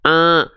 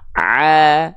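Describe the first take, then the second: First: The sound comes out nasal, through the nose. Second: The sound comes out clearly through the mouth. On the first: The speaker calls it wrong. "Jadinya sengau" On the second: The speaker calls it right. "semuanya keluar dari mulut. Sehingga nggak ada suara yang sengau"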